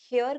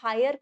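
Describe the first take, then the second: First: It starts with an h sound, like hair. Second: It starts with an h sound, like hire. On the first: "काफी लोग हेयर करते हैं" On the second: "हायर करते हैं"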